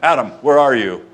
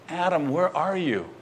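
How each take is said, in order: First: It sounds stern, like an arresting police officer. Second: It sounds heartbroken, like a grieving father.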